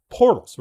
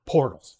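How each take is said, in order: First: "Portals" punched high and loud with a falling end; emphatic portals. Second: Said in the usual way. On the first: Shown as a demonstration. Pitching a Sedona portal business, "Portals" stressed. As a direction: hit "Portals" hard like a sales pitch.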